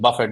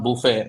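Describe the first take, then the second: First: The name ends with an 'it' sound. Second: The name ends with an 'ay' sound. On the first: The speaker calls it right. "that's the correct pronunciation" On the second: The speaker calls it wrong. "It's not buffet. ... he's not lunch to have"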